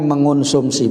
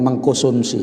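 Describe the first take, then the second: First: It is said without a k sound after meng. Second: It is said with a k sound after meng. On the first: The speaker calls it right. "Cakapnya mengonsumsi" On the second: The speaker calls it wrong. "bukan mengkonsumsi ya. Banyak yang salah"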